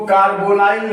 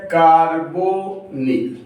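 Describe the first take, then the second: First: कार्बोनाइल with the ending said "-nile"; wrong pronunciation. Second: कार्बोनिल slowly in syllables, kaar-bo-nil; correct pronunciation. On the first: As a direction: say कार्बोनाइल, last syllable rhyming with "mile". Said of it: "इसको कार्बोनाइल नहीं पढ़ते हैं". (कार्बोनाइल, आख़िर में "नाइल" वाला ग़लत उच्चारण) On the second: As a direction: sound out कार्बोनिल with a short "-nil" ending. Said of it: "इसको हम लोग ऐसे पढ़ते हैं". (कार्बोनिल, धीरे-धीरे तोड़कर, अंत में छोटा "निल") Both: Shown as a demonstration.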